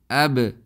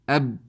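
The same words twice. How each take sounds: First: The final consonant is released with a bounce. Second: The final consonant stops abruptly without release. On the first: The letter is clearly identifiable. The speaker calls it right. "we do qalqalah on the sakin huruf, and they become something like this" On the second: The letter is hard to tell apart. The speaker calls it wrong. "it's very difficult to uh, guess what letter was read"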